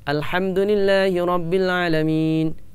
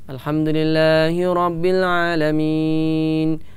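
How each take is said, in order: First: It is recited at a fast pace. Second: It is recited at a medium pace. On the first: "Ini termasuk cepat" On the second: "Itu adalah bacaan yang sedang"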